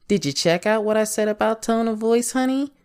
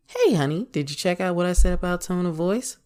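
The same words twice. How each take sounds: First: Higher question with "honey" tacked on top; pointed tone of voice. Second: Easy check-in, opening on "Hey, honey"; casual tone of voice. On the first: Asking honey about the tone of voice talk, pointed higher tone. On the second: Asking honey about the tone of voice talk, casual greeting tone. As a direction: ask it casually, greeting first, less lifted. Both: Shown as a demonstration. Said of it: "listening to me talk about tone of voice".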